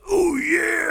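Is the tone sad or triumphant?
triumphant. It is said in a pompous, triumphant way.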